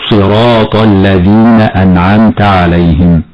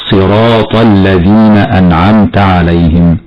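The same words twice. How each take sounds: First: "صراط" with lips pursed on an exaggerated heavy ص; over-rounded wrong ص. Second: Heavy ص in "صراط" without rounded lips; correct recitation. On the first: Teacher shows a common mistake, lip-rounded ص in "صراط". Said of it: "فيضم الشفتين في حرف الصاد مبالغة". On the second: Teacher shows students the right sound, heavy unrounded ص in "صراط". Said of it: "هكذا يكون النطق الصحيح". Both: Shown as a demonstration.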